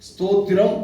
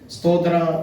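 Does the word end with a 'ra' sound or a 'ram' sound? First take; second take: ram; ra. First: The word is said in full, ending in 'ram'. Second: The word is clipped, ending in an open 'ra'. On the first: The speaker calls it right. "ஸ்தோத்திரம் அப்படின்ற ஒரு வார்த்தையை நம்ம உச்சரிக்கணும்" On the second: The speaker calls it wrong. "ஒவ்வொரு வார்த்தையும் நம்ம ஒவ்வொரு மாதிரி சொல்லிப்போம்"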